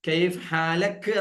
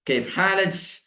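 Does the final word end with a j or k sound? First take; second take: k sound; j sound. First: The final word ends with a k sound. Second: The final word ends with a j sound. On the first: "കൈഫ് ഹാലക്ക് എന്നത് ജ് എന്നാവും യു എയിലൊക്കെ" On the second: "അത് ജ് എന്നാവും"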